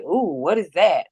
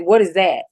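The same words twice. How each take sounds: First: Slow mock surprise, swooping up and down on OOH; imitated surprise. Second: Plain, falling question with weight on WHAT; retold challenge. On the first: Imitating the cop looking in the cup, mock surprise. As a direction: imitate him drawing out a wondering "ooh". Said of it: "He was like". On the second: Woman questioning the cop about the cup, plain challenge. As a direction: put the question to him directly, no play-acting. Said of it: "I said".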